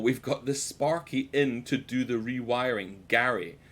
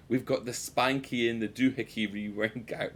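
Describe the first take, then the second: First: Slow, careful "Sparky", with an R, and "rewiring"; measured retake, each word of "to do the rewiring" separate; corrected reading. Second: "Spanky" for Sparky, garbled into "doohickey rewiring"; jumbled words, "Spanky in the doohickey", run together; mock misreading. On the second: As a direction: replay the botched reading with "Spanky" and "doohickey". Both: Shown as a demonstration. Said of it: "Dyslexia really took a hold of me there".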